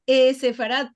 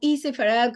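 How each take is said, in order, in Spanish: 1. La primera vocal es un sonido 'eh'. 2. La primera vocal es un sonido 'ee'. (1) "para nosotros es E Sefarad, todo en junto, con la E" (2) "como el modo a los Estados Unidos"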